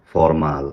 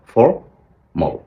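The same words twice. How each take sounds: First: ফর্মাল ending in a flat open "mal"; wrong mal ending. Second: ফর্মাল drawn out very slowly and ending in "mol"; slow correct formal. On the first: Teacher shows the wrong habit, ফর্মাল with "mal". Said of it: "মালের একটা গন্ধ পেয়েছি". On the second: Teacher slowly models the right ফর্মাল. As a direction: stretch ফর্মাল and close it on "mol". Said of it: "মাল না বলে মল বলবেন". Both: Shown as a demonstration.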